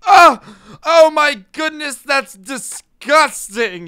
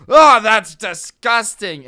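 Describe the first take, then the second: First: Very high, loud, slow shriek of disgust; shrieking outraged old man. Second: Put-on loud, high, slow old man squawk; outraged old man recoiling; squawking disgusted senior. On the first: Retold or imitated. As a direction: recoil like a shocked grumpy old man. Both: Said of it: "incredulous old people spirit".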